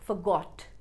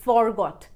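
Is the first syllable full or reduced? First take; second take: reduced; full. First: The first syllable is a short reduced 'f'. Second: The first syllable sounds like a full 'for'. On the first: The speaker calls it right. "Second form forgot" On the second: The speaker calls it wrong. "ना कि forgot"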